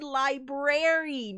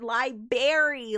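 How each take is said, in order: First: The R after the B is pronounced. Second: The R after the B is dropped. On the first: The speaker calls it right. "This is the Enchanted Library" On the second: The speaker calls it wrong. "not library. There's an R there"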